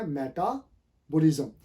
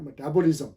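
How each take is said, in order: First: मेटाबॉलिज्म read by spelling, meh-ta-bo-lizm; imitating the spelled-out मेटाबॉलिज्म; slow मेटाबॉलिज्म with a full e; wrong pronunciation. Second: मेटाबॉलिज्म with a weak first vowel, muh-ta-bo-lizm; मेटाबॉलिज्म with the first vowel reduced; correct pronunciation. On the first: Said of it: "ये actually मेटाबॉलिज्म नहीं है". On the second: Shown as a demonstration. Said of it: "ये है मेटाबॉलिज्म".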